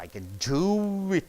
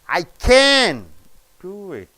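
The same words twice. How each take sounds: First: The stress falls on the word do. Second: The stress falls on the word can. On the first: It is a plain positive statement. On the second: It is an emphatic positive statement. "It is extra positive"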